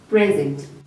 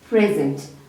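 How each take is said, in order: First: The stress is on the first syllable. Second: The same.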